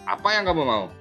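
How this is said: It sounds harsh and stern, with heavy emphasis. The listener is being scolded. "Sedangkan saat menjadi penghukum"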